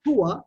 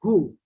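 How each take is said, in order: First: هو said "hu-wa"; two-syllable standard form. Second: "who" as one long "hoo"; short Emirati form. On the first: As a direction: give هو a final -wa syllable. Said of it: "Instead of saying هو". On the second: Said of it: "we are saying who". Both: Shown as a demonstration.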